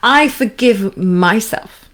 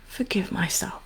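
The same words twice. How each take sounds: First: Slow, kind and sincere; tender, slow self-forgiveness; with compassion. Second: Soft whispered words to yourself; hushed whisper of self-forgiveness. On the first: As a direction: say it gently and mean it. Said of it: "really with compassion, with kindness". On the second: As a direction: whisper it as if only in your head. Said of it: "Say it in your head". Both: Shown as a demonstration.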